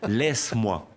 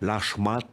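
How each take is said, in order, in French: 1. Le premier mot ressemble à 'laisse', avec un son 's'. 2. Le premier mot ressemble à 'lâche', avec un son 'sh'. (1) "Non, laisse-moi" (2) "il me faisait Lâche-moi t'ami"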